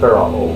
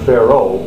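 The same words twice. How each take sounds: First: Each vowel is pronounced separately. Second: The vowels are merged together. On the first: The speaker calls it right. "That would be the correct way to say it" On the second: The speaker calls it wrong. "It's not"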